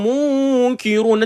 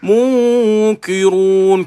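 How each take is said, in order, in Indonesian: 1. 'Ki' nipis, dengan bibir tersenyum. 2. 'Ki' tebal, dengan bibir memoncong. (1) "Bila tuan-tuan menyenyumkan bacaan pada munkirun ... Tak payah moncong" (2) "membacakan dengan ki tu tebal ... Ki muncung pula ki. Salah"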